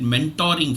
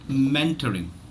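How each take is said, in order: First: The 'o' is said as a full O. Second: The 'o' is reduced to a weak schwa. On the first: The speaker calls it wrong. "pronounce it as an as an O" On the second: The speaker calls it right. "The letter O is not necessarily the O sound"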